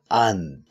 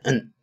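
First: It is said fully with the heaviest stress. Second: It is reduced to only an n sound. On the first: "最重的呢就是and" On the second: "再次一点n"

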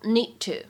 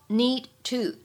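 First: The d sound is held without release. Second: The d sound is fully released.

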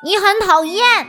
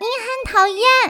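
First: It is said in a plain, normal voice. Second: It is said in an odd, mocking voice.

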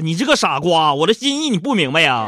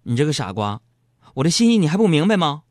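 First: It is said scornfully and dismissively. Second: It is said shyly and sweetly.

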